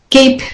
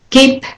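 The two takes are said the same way.

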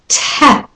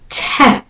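First: The t is released with a puff of air. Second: The same.

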